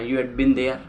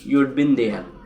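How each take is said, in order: First: The word 'had' is said in full. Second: 'Had' is reduced to a d sound. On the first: "you हैड been there ऐसे" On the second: "हैड में apostrophe डी ... ड का वो देते हैं"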